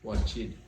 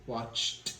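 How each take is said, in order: First: The ending is an extra 'id' syllable. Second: The ending is a plain 't' sound. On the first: The speaker calls it wrong. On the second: The speaker calls it right.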